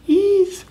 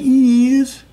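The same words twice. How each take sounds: First: The vowel is a short 'i'. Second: The vowel is long, like 'ee'. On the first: The speaker calls it right. "Short vowel sound. I. Short I" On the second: The speaker calls it wrong. "Not is"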